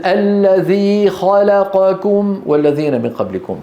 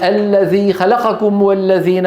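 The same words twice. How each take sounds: First: الذي خلقكم with every short vowel the same length; slow, measured recitation; even vowel lengths. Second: خلقكم with the vowels timed unevenly; faulty خلقكم; uneven vowel lengths. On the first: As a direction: correct tajweed timing. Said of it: "نفس الطول". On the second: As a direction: recite خلقكم with a vowel clipped. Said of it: "أما إذا قال". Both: Shown as a demonstration.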